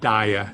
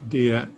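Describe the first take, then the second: First: The first vowel is a long I sound. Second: The first vowel is a short, soft I. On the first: The speaker calls it wrong. "it's not a long I at all. It's not dia" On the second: The speaker calls it right. "It could be a soft uh, I"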